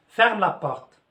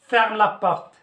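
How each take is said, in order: No difference in how they are said.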